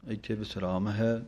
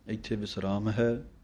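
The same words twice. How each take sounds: The two takes are said the same way.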